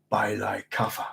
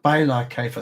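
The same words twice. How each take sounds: First: "La Kaifa" stumbled as "lie-kaffa", softer and lower; mispronounced. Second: "La Kaifa" said cleanly as "lah kay-fa"; corrected pronunciation. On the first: Reader reading a Fremen chant stumbles over "Kaifa", mispronouncing it as lie-kaffa. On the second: Reader corrects his Fremen chant, saying "Kaifa" as kay-fa. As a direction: redo it firmly: "By La Kaifa", with "Kaifa" as kay-fa. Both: Shown as a demonstration. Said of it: "sometimes I pronounce these things wrong".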